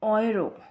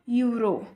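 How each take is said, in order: First: The word begins with an 'oy' sound. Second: The word begins with a 'yoo' sound. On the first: The speaker calls it right. "इसे हम कहते हैं ऑयरो" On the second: The speaker calls it wrong. "It's not यूरो"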